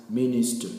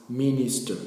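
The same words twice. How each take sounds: No difference in how they are said.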